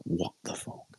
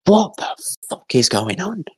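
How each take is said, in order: First: Voiceless, very soft disbelief; bewildered aside. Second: High-pitched mock bewilderment; retold confusion. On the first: Retold or imitated. Son seeing the plant pot on fire, hushed bewilderment. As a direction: say it under the breath, imitating shock. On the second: Son watching the family fight a fire, high bewildered cry. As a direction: imitate baffled disbelief, pitched way up. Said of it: "in just confused".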